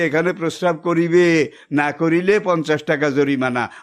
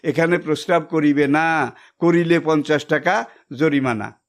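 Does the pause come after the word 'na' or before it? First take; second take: before; after. First: The pause comes before the word 'na'. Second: The pause comes after the word 'na'.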